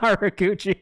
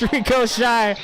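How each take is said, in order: First: The name ends with a 'chee' sound. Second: The name ends with a 'shy' sound. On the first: The speaker calls it wrong. "It's not Rikuchi" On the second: The speaker calls it right. "It's Rico Shy"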